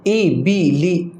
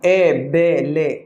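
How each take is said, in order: First: The vowels are pure 'ee' sounds. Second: The vowels are 'ay' sounds. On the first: The speaker calls it right. "ज़ेर की जो आवाज़ होती है वो नीचे की तरफ होती है" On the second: The speaker calls it wrong. "इस तरह से पढ़ना मजहूल कहलाता है"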